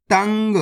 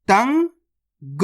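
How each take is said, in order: First: Said in the usual way. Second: तंग very slowly, tan rising, long pause, then ga; split into syllables. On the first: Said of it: "तो मिलके बन जाएगा". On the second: Shown as a demonstration. Teacher breaking a word down for learners, split into syllables. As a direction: sound out तंग in two separate parts. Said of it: "direct मात्रा का उच्चारण करके पढ़ेंगे".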